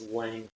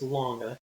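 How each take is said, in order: First: The name is said unlike the word long. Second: The name is said like the word long. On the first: The speaker calls it wrong. "videos that call it the James Lange theory" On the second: The speaker calls it right. "The correct pronunciation is Lange, which helps our mnemonic device"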